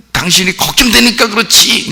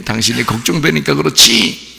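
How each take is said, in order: First: High-pitched acted wail; worried wife's outcry. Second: Gentler acted reproach, rising at the end; softer worried wife. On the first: Wife explaining why she hits him, high mock-upset cry. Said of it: "이제 이거는 이제 조금 더 이제". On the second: Worried wife to her husband, softened reproach. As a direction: tone the outcry down to tender fretting. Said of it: "더 부드럽게".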